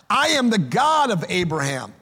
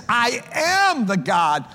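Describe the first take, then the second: First: Said in the usual way. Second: "am" stressed and slowed, raised a little; slow, weighty "I am the God". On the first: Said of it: "emphasis of that statement was in the verb". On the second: Shown as a demonstration. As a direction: dwell on "am" in "I am the God". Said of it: "present tense".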